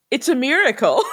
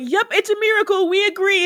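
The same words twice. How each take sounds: First: Put-on innocent announcement with a wicked undertone; mock diabolical. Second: Higher-pitched, mock-earnest agreement; gullible witches agreeing. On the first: Great actress witch fooling the others, mildly diabolical. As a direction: lightly imitate a scheming witch. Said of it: "the most, like, diabolical way". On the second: Other witches going along with the schemer, mock-credulous. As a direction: imitate followers who buy it completely. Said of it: "every other witch is like".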